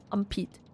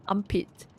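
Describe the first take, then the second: No difference in how they are said.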